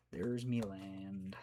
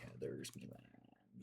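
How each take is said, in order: First: Slow, drawn-out pirate talk; lightly played pirate, stretched slowly. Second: Low, slow, whispered pirate. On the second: Pretend. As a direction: growl it low like a pirate, slowly. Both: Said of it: "Says the pirate".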